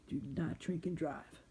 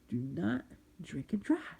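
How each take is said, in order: First: The phrase is said at normal speed. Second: The phrase is said slowly and deliberately.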